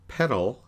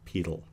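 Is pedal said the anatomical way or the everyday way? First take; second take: everyday; anatomical. First: Pedal is said the everyday, bicycle way. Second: Pedal is said the different, anatomical way. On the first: It names the bicycle part. "if you get on a bicycle, you put your foot on the pedal" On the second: It refers to the foot. "We're going to pronounce it a little bit different. We'll pronounce it as pedal"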